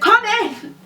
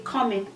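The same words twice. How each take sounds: First: It is said louder with a raised voice. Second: It is said calmly at normal volume. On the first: "when you raise your voice" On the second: "I'm just saying, come"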